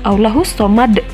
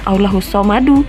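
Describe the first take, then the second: First: The phrase stops on its final consonant. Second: The phrase ends with an added vowel. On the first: The speaker calls it right. "tapi Allahus somad" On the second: The speaker calls it wrong. "bukan Allahus somadu"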